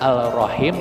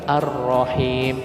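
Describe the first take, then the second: First: The L is pronounced before the R. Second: The L merges into a doubled R. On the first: The speaker calls it wrong. "bukan Al-Rahim" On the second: The speaker calls it right. "tetapi Ar-Rahim"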